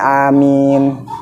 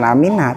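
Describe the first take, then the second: First: The word ends on the m sound. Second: The word ends with a short a vowel. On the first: The speaker calls it right. "tetap disukunin amin" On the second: The speaker calls it wrong. "sebenarnya Amina ... bukan berarti ntar di masjid Amina"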